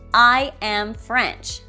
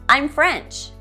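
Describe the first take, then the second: First: The verb is said in full, as a separate word. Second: The verb is reduced and joined to the pronoun. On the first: "This is the strong form" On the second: "This is the weak form"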